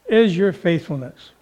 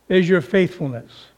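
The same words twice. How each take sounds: The two takes are said the same way.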